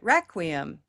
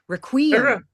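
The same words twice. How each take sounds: First: The stress is on the first syllable. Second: The first syllable is reduced, stress comes later. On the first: The speaker calls it right. "It's at the beginning" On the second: The speaker calls it wrong. "putting stress somewhere else... You'd have to reduce the first syllable"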